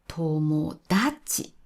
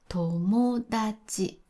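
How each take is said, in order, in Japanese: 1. 日本語にはない動き方をします。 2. 最初の拍のあとは、ピッチが平らなままです。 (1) "でもこれを友達という人がたくさんいます。" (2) "これは友達です。"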